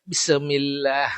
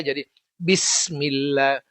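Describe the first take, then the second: First: Bismillah with an extra vowel, bisamilla; wrong pronunciation. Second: Bismillah slow, smooth, with no break; correct pronunciation. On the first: Teacher contrasting a wrong reading for students, broken syllables. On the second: Teacher contrasting correct reading for students, smooth and slow. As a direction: say Bismillah smoothly, sin joined to mim. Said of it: "Bukan Bismillah". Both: Shown as a demonstration.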